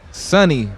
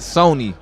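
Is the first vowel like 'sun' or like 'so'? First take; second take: sun; so. First: The first vowel sounds like 'sun'. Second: The first vowel sounds like 'so'. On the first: The speaker calls it right. "S O N N Y" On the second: The speaker calls it wrong. "not Sony"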